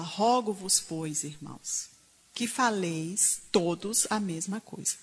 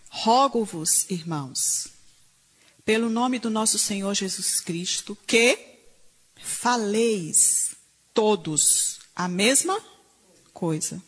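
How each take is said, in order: First: Said in the usual way. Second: Each word stretched and stressed; slow emphatic reading. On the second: Shown as a demonstration. Preacher reading scripture to the congregation, slow and emphatic. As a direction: read Paul's plea slowly, word by word. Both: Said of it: "Paulo fala".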